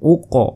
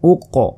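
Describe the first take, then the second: The two takes are said the same way.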